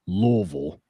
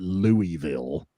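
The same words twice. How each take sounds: First: It is said the local Kentucky way. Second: It is said the way outsiders say it.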